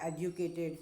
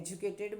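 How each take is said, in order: First: The second sound is a 'd' sound. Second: The second sound is a 'j' sound. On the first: The speaker calls it right. "એનો એકચ્યુઅલમાં ઉચ્ચાર છે એડ્યુકેટેડ" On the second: The speaker calls it wrong. "આપણે એજ્યુકેટેડ બોલીએ છીએ"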